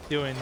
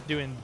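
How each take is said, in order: Both takes have the same delivery.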